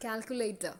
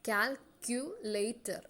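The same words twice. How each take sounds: First: Said in the usual way. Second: "Calculator" stretched very slowly, each syllable apart; drawn-out syllables. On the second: Shown as a demonstration. Teacher asking students to listen, very slow syllables. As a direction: pull "Calculator" apart beat by beat. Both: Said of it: "നിങ്ങളൊന്ന് ശ്രദ്ധിച്ചേ".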